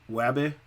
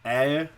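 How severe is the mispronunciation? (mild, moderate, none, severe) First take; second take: moderate; severe. First: Several sounds are changed or dropped. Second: No consonant sounds are produced at all. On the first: "Over here" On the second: "they're not producing any of their consonant sounds at all"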